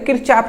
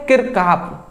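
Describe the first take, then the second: First: The second syllable starts with a ch sound. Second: The second syllable starts with a k sound. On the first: This is the easier, everyday way of saying it. "किरचाफ हमारे लिए easy रहता है तो किरचाफ हम कहते हैं" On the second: This is the person's actual name. "But उसका नाम क्या है"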